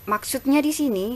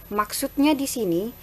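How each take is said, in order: The two takes are said the same way.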